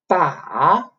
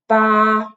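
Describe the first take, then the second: First: The pitch dips down, then rises. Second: The pitch stays level and flat. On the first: "the third tone, which is like you go down a little bit and then go up" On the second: "the first tone, which is usually written like a flat line on top of the finals, which usually make the tone flat"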